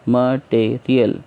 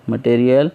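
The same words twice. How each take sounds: First: material in three slow pieces; teacher counting out the syllables of material. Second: Said in the usual way. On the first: Shown as a demonstration. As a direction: say material as म, टे, real with gaps. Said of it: "इस तरीके से". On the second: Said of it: "syllable कैसा है इसमें?".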